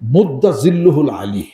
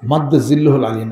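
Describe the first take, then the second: First: The first word begins with a 'u' vowel. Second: The first word begins with an 'a' vowel. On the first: The speaker calls it right. "শব্দটা হলো মুদ্দা জিল্লুহুল আলী" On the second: The speaker calls it wrong. "শব্দটা মাদ্দা জিল্লুহুল আলী না"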